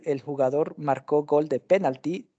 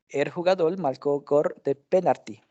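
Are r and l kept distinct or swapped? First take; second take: distinct; swapped. First: The r and l sounds stay distinct. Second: The r and l sounds are swapped. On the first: "En vez de decir" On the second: "Alternancia de los sonidos de la R y L"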